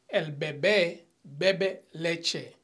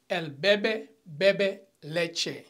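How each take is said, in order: First: First "bebé" said be-BÉ, stressed on the final syllable; stress on last syllable. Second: "bebé" said as BE-be, stressed on the first syllable; slowly, "bebé" with the weight on its first "be". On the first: Teacher reading the accented example sentence, "bebé" stressed be-BÉ. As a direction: slowly, lean on the final "bé" of "bebé". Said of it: "the second one means the baby". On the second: Teacher reading the unaccented example sentence, "bebé" stressed BE-be. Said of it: "the drinks drinks milk". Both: Shown as a demonstration.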